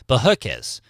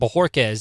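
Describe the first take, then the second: First: The R sound is flattened and barely heard. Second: The R sound is clearly pronounced with a curl. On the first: "I would pronounce it" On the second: "my last name"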